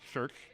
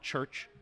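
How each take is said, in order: First: The ch sounds are slurred and poorly formed. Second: The ch sounds are crisp and clearly formed.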